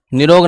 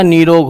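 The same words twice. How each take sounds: First: निरोग with a short "i" in नि; short first vowel. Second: निरोग with a long "ee", as "neerog"; long first vowel. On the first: Teacher showing students the wrong form, निरोग with short "ni". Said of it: "निरोग नहीं होता". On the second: Teacher correcting students, निरोग said with long "nee". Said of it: "निरोग होता है". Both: Shown as a demonstration.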